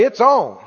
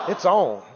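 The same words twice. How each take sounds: First: Call and response. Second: Said in the usual way. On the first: Shown as a demonstration. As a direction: get them to say it back.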